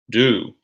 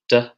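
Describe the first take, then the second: First: The word is full, with a clear long vowel. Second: The word is a short, weak, reduced sound. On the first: It is the main verb. "followed by the strong form of the word" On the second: It is a helping verb. "we have the weak, unstretched sound"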